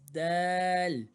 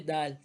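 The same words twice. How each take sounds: First: The vowel is drawn out long. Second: The vowel is short and clipped. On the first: The speaker calls it right. "Need to increase the length of the word. It's dal" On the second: The speaker calls it wrong. "Don't say dal"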